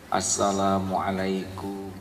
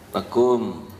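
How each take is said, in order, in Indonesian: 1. Salamnya diucapkan lengkap, setiap suku katanya. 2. Salamnya diucapkan terpotong, hanya sampai suku kata terakhirnya. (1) "merem-merem itu ceritanya menjiwai" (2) "apalagi diringkas. Kurang bijaksana"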